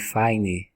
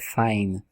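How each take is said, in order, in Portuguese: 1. Um som de vogal segue a consoante final. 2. A palavra termina no som de consoante. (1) "esse som de I no final" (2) "esse som não existe, é fine"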